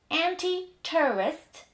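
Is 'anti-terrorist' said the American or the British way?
British. It is said in a British English accent. "w British English będzie to brzmiało następująco"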